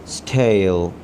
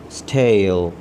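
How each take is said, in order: Both takes have the same delivery.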